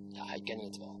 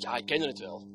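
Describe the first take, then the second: First: Much softer, low repeat; hushed echo. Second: Said in the usual way. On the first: Acted. Preacher echoing himself to congregation, hushed. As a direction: drop to a near hush.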